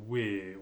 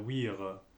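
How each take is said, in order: First: No R sound; the vowel is lengthened. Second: The final R sound is pronounced. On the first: The speaker calls it right. "Il faut dire we. On oublie le R, on allonge un peu" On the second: The speaker calls it wrong. "souvent les Français vont dire we're"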